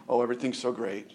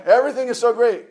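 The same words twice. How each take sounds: First: Mock fake cheer. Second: "Everything is so great" much higher, louder and fast, hammed-up. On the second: Preacher mocking Christians' fake perfection, rushed hammed-up gush. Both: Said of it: "put on this air of".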